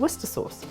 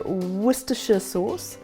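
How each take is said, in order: First: The name is said without the extra final syllable. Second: The name is said with an extra final syllable. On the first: This is how it is said in Britain. The speaker calls it right. "that is exactly what it's called" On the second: This is how Americans say it. The speaker calls it wrong. "I think you guys say Worcestershire sauce"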